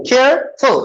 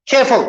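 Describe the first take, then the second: First: careful broken as "care … फुल"; split into syllables. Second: Said in the usual way. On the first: Shown as a demonstration. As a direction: pause between care and फुल. (Careful को दो हिस्सों में तोड़कर) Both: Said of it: "How many syllables".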